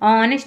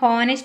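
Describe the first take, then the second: First: The word begins with a vowel sound. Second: The word begins with an h sound. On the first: The speaker calls it right. "ఆనెస్ట్ అని చదవాలి" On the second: The speaker calls it wrong. "దీన్ని హానెస్ట్ అని చదవకూడదు"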